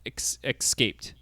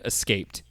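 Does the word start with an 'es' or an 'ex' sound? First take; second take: ex; es. First: The word starts with an 'ex' sound. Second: The word starts with an 'es' sound. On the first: The speaker calls it wrong. "You're saying it with an X" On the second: The speaker calls it right. "I think you mean escaped"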